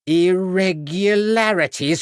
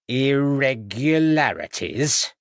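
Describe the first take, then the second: First: High, slow, outraged repeat; high slow outraged echo; indignant outrage. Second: Said in the usual way. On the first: A narrator's reading. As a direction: throw the word back, high and slow.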